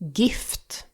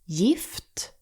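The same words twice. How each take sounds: First: The word begins with a hard g sound. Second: The word begins with a y sound. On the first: The speaker calls it wrong. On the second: The speaker calls it right.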